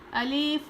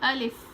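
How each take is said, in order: First: The final vowel is drawn out long. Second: The final vowel is said quickly and short. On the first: The speaker calls it wrong. "अलीफ नहीं" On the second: The speaker calls it right. "अलिफ को जल्दी पढ़ना चाहिए"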